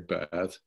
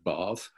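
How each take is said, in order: First: It is said with an American accent. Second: It is said with a British accent.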